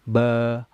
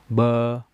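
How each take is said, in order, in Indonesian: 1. Vokal ini diucapkan dengan mulut terbuka terlalu lebar. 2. Vokal ini diucapkan dengan mulut terbuka terlalu lebar.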